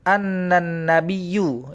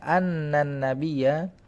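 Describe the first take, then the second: First: The last word ends in a u vowel. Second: The last word ends in an a vowel. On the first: The speaker calls it wrong. "itu pasti salah" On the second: The speaker calls it right. "Fathah ya benar"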